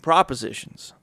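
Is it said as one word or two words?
one word. It is run together as one word. Offers or suggestions made to someone. "enunciated differently"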